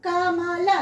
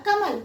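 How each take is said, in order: First: "కమల" in separate syllables, final a sounded; "కమల" with the last ల fully voiced; full final vowel. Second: "కమల్" joined up, ending on a bare l; "కమల్" as one word, no final a; half final letter. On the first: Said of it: "ఇక్కడ కమల అనట్లేదు మనం". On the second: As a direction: say "కమల్" without the final vowel. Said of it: "చివరి అక్షరాల్ని హాఫే పలుకుతున్నాం". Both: Shown as a demonstration.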